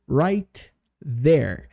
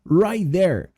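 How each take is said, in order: First: The T of right is clearly pronounced. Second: The T of right is dropped and linked. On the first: The speaker calls it wrong. "eu não falo right there. Isso é muito demorado" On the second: The speaker calls it right. "a gente meio que junta esses dois T's aqui"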